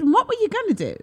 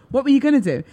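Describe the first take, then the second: First: Very high, squeaky question; shrill it way up in mock disbelief; squeaked mock question; wrong high take. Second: A touch louder, half laughing; corrected take. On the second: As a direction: ask it again with a laugh. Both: Shown as a demonstration. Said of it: "Oh, no, I didn't say it like that".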